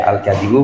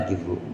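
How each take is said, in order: First: The first vowel is 'a', as in kadhibu. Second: The first vowel is 'i', as in kidbu. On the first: "boleh dibaca al-kadhibu" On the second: "boleh dibaca al-kidbu"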